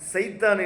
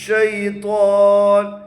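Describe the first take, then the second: First: The word begins with an 's' sound. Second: The word begins with an 'sh' sound. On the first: The speaker calls it wrong. "சில பேர் சைத்தான்பாங்க, சைத்தான் இல்ல" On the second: The speaker calls it right. "ஷை ஷை ஷீன்"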